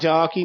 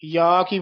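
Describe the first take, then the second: First: The first word begins with a j sound. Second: The first word begins with a y sound. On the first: The speaker calls it wrong. "ਜਾ ਕੀ ਨਹੀਂ ਬੋਲਣਾ" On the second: The speaker calls it right. "ਯਾ ਕੀ ਬੋਲਣਾ"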